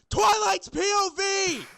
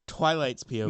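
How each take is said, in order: First: It is yelled loudly. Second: It is read at normal volume.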